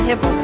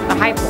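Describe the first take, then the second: First: The first syllable sounds like 'hip'. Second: The first syllable sounds like 'high'. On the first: The speaker calls it wrong. "It's not the hippo" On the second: The speaker calls it right. "That's how you say it?"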